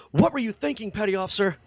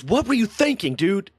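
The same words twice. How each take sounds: First: High-pitched imitated reprimand; mock-angry dressing-down, not full volume; retold yelling. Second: Higher-pitched mock telling-off; imitated angry yell, partly held back; retold yelling. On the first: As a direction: act out an admiral yelling at a sailor. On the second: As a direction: retell an officer's yelled demand. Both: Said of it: "yelling at him".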